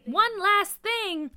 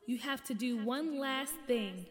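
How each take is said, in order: First: High, loud, drawn-out disbelief; indignant outburst. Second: Echoing, measured pronouncement; mysterious changed voice. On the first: Kid reacting to one last task, indignant outburst. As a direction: echo it back in loud protest. Child protests at another task. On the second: Unseen voice giving the crew a task, echoing and measured. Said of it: "this voice changing stuff". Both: A narrator's reading.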